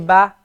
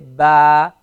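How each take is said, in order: First: The vowel is short and clipped. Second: The vowel is stretched out long. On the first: The speaker calls it right. "Notice we say ba" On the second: The speaker calls it wrong. "We don't say ba"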